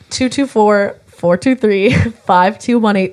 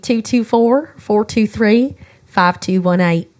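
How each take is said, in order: First: It is said in a non-Southern accent. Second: It is said in a Southern American accent.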